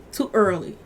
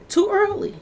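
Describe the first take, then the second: First: Said in the usual way. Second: Pitched way up in disbelief; "Too early" flung out high and incredulous; outraged disbelief, high; shocked exclamation. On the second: Real, not acted. Exclaims, then repeats lower.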